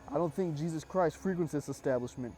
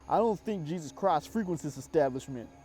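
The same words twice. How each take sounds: First: It is said in the reader's plain voice. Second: It is said in a thick Cajun accent.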